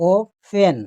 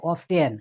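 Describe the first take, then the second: First: "ও ফেন" in two separated syllables, no T; silent T. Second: "অফটেন" with the T sounded after F; T pronounced. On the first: Teacher corrects the common reading, "ও ফেন" with silent T. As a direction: split "ও ফেন" after the O and drop the T. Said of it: "কোনো উচ্চারণ নাই". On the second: Teacher quotes a common mistake, "অফটেন" with the T pronounced. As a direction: say "অফটেন" with an audible T. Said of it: "কিন্তু না, অফ হবে না". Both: Shown as a demonstration.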